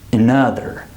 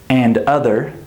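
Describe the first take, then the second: First: "another" as uh-NUH-ther; weak start, weight on NUH in "another"; second-syllable stress. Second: "and other" as two full words, AND UH-ther; unreduced, even stress. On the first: Teacher shows the right stress, "another" as uh-NUH-ther. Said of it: "get the right stress on the next word". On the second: Teacher shows unclear stress, "and other" with both words full. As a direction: give "and" a full vowel and d in "and other". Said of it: "you can't hear where the stress is". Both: Shown as a demonstration.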